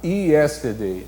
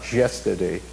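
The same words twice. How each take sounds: First: It begins with an ee vowel sound. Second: It begins with a j-like consonant sound. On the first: This is how a Brazilian speaker tends to say it. "o brasileiro tem a tendência a falar yesterday, né? Com o, o som de I" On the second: This is how a Spanish speaker tends to say it. "O falante de espanhol tem a, a tendência a falar yesterday"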